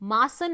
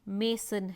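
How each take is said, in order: First: The first vowel sounds like 'ah'. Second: The first vowel sounds like 'ay'. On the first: The speaker calls it wrong. "Pronunciation मासन नहीं है" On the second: The speaker calls it right. "मेसन है"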